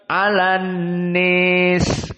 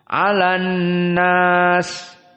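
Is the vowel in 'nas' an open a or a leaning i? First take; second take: leaning i; open a. First: The vowel in 'nas' leans strongly toward i. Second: The vowel in 'nas' is a plain open a. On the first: This follows one traditional reading of the text. "dibaca al-imalah al-kubra" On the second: This follows another traditional reading of the text. "tidak dibaca al-imalah, dibaca dengan fathah"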